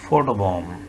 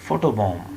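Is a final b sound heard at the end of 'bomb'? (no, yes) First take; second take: no; no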